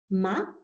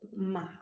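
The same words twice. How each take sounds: First: It is said with a rising second tone. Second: It is said with the third tone. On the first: It means boring. "le deuxième ton, le ton monte" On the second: It means horse. "le troisième ton"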